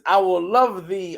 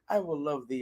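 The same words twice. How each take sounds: First: It is said with excited, triumphant energy. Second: It is said in a calm, subdued way. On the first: The speaker has just won a battle. The speaker calls it right. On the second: It is a routine church reading. The speaker calls it wrong. "That's not how you should read that"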